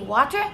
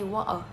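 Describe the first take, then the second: First: The T in the middle is clearly pronounced. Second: The T in the middle is dropped. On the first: "we can either say water" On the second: "we can just don't pronounce the T and say water"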